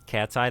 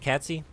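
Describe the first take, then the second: First: The name ends with an 'eye' sound. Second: The name ends with an 'ee' sound. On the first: The speaker calls it right. "that makes more sense" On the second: The speaker calls it wrong. "Am I getting that pronunciation right?"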